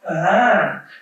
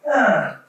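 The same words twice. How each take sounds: First: It imitates a French baby's cry pitch pattern. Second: It imitates a German baby's cry pitch pattern.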